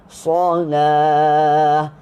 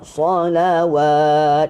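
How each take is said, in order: First: The word has no 'w' sound in it. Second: The word has a 'w' sound before the end. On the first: The speaker calls it right. "Jadi bunyi dia solah" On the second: The speaker calls it wrong. "bukan solawat"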